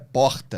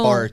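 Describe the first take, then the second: First: It is said with the speaker's own carioca accent. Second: It is said with a southern Brazilian accent.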